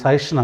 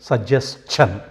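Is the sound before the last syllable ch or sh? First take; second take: sh; ch. First: The last syllable starts with a plain sh sound. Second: The last syllable starts with a ch sound. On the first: The speaker calls it wrong. "ఇది సజెషన్ అనకూడదు" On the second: The speaker calls it right. "లాస్ట్లో చా పలకాలన్నమాట"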